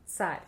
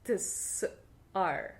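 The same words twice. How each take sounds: First: "Tsar" with t and s fused into one quick sound; merged ts. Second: "Tsar" broken into separate t, s and ar; split ts. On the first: Teacher showing learners the Russian way, merged ts. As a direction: say "Tsar" in one piece, ts as a single consonant. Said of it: "make these two sounds into one letter". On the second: Teacher showing learners what not to say, split sounds. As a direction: pull "Tsar" apart sound by sound. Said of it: "So we don't actually say". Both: Shown as a demonstration.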